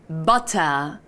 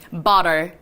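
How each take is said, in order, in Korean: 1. 중간의 t는 또렷하고 분명한 t입니다. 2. 중간의 t는 부드럽게 이어지는 탄설음입니다.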